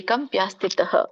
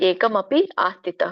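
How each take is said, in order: First: The words are run together into one form. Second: The words are said as three separate words. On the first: "ನೀವು ಹಾಗೆ ಹೇಳ್ಬೋದು" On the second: "ಅಂತ ಕೂಡ ಹೇಳ್ಬೋದು"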